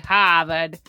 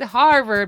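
First: It is said in a Boston accent. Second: It is said in a standard, non-Boston accent. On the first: "but they say Harvard" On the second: "It's Harvard"

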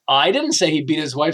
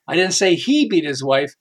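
First: The stress is on the word I. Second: The stress is on the word beat.

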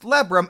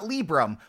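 First: The first vowel sounds like 'eh'. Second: The first vowel sounds like 'ih'. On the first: The speaker calls it right. "it is pronounced Lebrum" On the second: The speaker calls it wrong. "and not Librum, which is how I've been pronouncing it since 2007"

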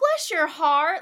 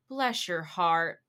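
First: It sounds warm and grateful. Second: It sounds sympathetic and pitying.

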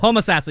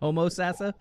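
First: The word is said quickly. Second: The word is said slowly. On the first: The speaker calls it right. "You got to say it real fast" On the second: The speaker calls it wrong. "so you're not saying Homosassa"

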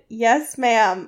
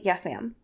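First: It is said loudly. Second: It is said quietly.

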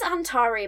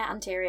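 First: The middle vowel is an 'ah' sound. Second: The middle vowel is an 'ee' sound. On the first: This is how the word is written. "It says Antari" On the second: This is how the reader had been saying it privately. "in my head when I was reading it, I was calling it Antiri"

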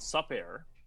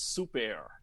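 First: The first syllable has a short vowel, like 'sup'. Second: The first syllable has a long vowel, like 'soup'. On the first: The speaker calls it wrong. "It's not Sup Air" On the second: The speaker calls it right. "it's Soup Air"

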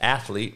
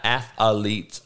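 First: It is said in two syllables, ath-lete. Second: It has an extra vowel, ath-a-lete. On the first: The speaker calls it right. "And it's athlete" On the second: The speaker calls it wrong.

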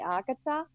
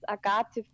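First: The name is pronounced the anglicized way. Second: The name is pronounced the German way. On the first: "but you can say Agatha" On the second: "In Germany, it's Agathe Fuller"

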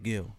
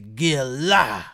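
First: The name is said flatly, without force. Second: The name is said forcefully, with conviction.

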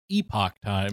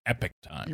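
First: Epoch is pronounced the way it is spelled. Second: Epoch is pronounced differently from its spelling. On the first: This is how the spelling suggests it is read. "it would be pronounced Epoch Times, because that's the way it's spelled" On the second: This is how the paper itself says its name. "for whatever reason, pronounce it Epoch Times"

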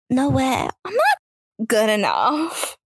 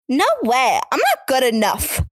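First: It is said in a shy, timid tone. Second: It is said in a plain, ordinary tone.

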